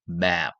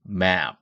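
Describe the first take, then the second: First: The vowel is drawn out long. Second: The vowel is drawn out long.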